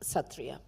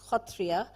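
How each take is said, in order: First: The word begins with a plain s sound. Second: The word begins with a throaty kh sound. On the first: This follows the English spelling. The speaker calls it wrong. "pronouncing it incorrectly as Satriya" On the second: This is how it is said locally. The speaker calls it right. "pronounced in Assam as Khotriya"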